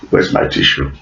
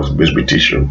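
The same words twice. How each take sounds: First: Mock whisper. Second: Said in the usual way. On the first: Vlogger pretends to tear up and whispers for a tissue. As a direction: whisper it as a pretend tearful aside. Repeated unvoiced.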